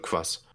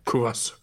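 First: The u vowels are dropped, leaving one syllable. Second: Each u vowel is clearly pronounced.

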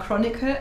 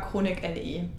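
First: The name ends in one syllable, like 'chronicle'. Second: The name ends with the letters L and E. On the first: Other people in the group say it this way. "Es gibt Leute, die sagen Chronicle" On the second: The speaker always says it this way. "aber ich sage immer Chronic LE. Ich finde das cooler"

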